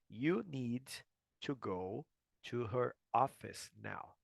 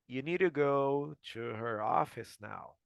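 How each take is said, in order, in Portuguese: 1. Cada palavra é dita separadamente e com clareza. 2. As palavras se emendam na fala corrida. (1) "Eu vou ler quebrado" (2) "eu emendei tudo como tentando fazer como um americano"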